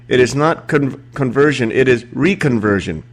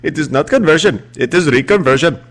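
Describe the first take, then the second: First: It is read in the speaker's ordinary accent. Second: It is said in an imitated Indian accent. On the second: "in his own words"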